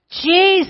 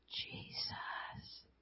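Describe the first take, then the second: First: The word is shouted loudly. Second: The word is whispered softly.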